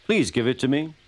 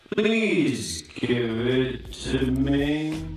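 First: Said in the usual way. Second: Very slow, stretched-out plea; drawn-out request. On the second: Acted. Guard asks for the bootlace, extremely slow and higher. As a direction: drag every word right out.

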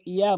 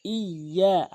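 First: Short ইয়া with single y; ইয়া cut short, no stretch; common mispronunciation. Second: ইয়া with doubled y and long আ; drawn-out, pressed ইয়া; correct stretched ya. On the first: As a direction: say ইয়া quickly, undoubled. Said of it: "অধিকাংশ লোক ইয়া বলে". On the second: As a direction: double the y and hold ইয়া one alif. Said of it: "এক আলিফ টেনেও বলতে হবে". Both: Shown as a demonstration.

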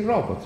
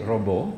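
First: "robot" with the final t clearly sounded, higher; correct robot pronunciation. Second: "robot" said as "ro-BO", silent final t; French-style robot. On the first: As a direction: say "robot" ending in a T, even in Italian. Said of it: "you say robot". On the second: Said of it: "it's said only by French people". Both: Shown as a demonstration.

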